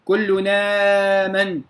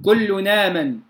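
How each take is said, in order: First: كل نامن slowly, long aa stretched out; lengthened badal. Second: كل نامن joined as kullu-naaman, short vowel; Warsh naql. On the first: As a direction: link kullu-naaman and hold the aa. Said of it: "بإشباع البدل". (نقل ورش مع مد البدل في كل نامن) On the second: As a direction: drop the hamza and link the noon in كل نامن. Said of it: "يقرؤون بالنقل". (نقل ورش في كل نامن بالقصر) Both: Shown as a demonstration.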